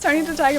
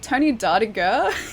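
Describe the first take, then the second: First: The middle is said as separate words, the Tiger. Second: The middle runs together as one word, Dartiger. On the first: The speaker calls it right. "It's Tony the Tiger" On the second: The speaker calls it wrong. "he butchered it"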